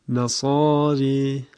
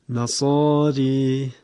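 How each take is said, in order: No difference in how they are said.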